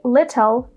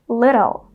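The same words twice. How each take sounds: First: The middle consonant is a clear T sound. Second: The middle consonant is a quick D sound. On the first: The speaker calls it wrong. "We don't say little" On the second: The speaker calls it right. "a T becomes a fast D"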